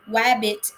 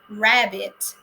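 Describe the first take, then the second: First: The word begins with a W sound. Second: The word begins with an R sound. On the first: A child substitutes one sound for another. The speaker calls it wrong. "substituting different words with uh, different syllables or sounds, such as saying wabbit" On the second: This is the intended target word. The speaker calls it right. "instead of saying rabbit"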